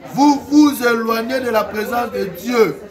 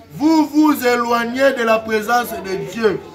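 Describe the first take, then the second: Both takes have the same delivery.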